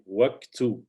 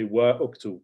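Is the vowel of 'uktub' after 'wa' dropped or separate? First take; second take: dropped; separate. First: Wa runs straight into ktub with no vowel. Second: A separate u vowel begins uktub after wa. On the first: The speaker calls it right. "So we say waqtu" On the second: The speaker calls it wrong. "We don't say wa uktu"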